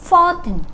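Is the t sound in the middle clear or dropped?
dropped. The t sound is barely heard. This is the American way. "ถ้าเป็นอเมริกาเมื่อไหร่ตัว t ตัวนี้จะลงท้ายเป็นเหมือนอื่นแบบนี้ค่ะ"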